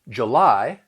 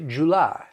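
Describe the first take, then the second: First: The stress is on the second syllable. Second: The stress is on the first syllable. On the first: "instead of July" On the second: "they will switch the stress to the first syllable"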